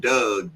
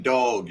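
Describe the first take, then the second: First: "Doug" as Baltimore's way of saying dog; Baltimore pronunciation. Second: Clear, slow "dog" as a translation; standard pronunciation. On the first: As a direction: say "Doug" with a short UH vowel. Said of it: "It's just a Baltimore thing". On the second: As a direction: say "dog" with an open AW vowel, not UH. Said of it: "if y'all don't know what he's saying". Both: Shown as a demonstration.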